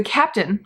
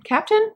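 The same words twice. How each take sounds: First: Said in the usual way. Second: Sudden high questioning rise; unsure question. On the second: Real, not acted. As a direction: ask it, doubting the word. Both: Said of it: "I keep calling her the captain".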